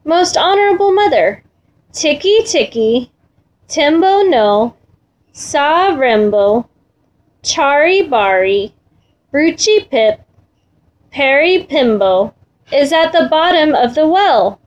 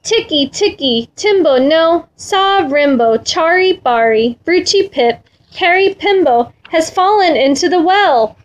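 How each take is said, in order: First: Slow, deliberate, a pause after each name; measured, careful child's recital; very slowly. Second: Lightly acted panting child, slightly higher; a touch of breathless urgency. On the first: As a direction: spell out the long name piece by piece. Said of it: "very slowly, said". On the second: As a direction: hurry through the long name as if winded. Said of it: "he panted". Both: A narrator's reading.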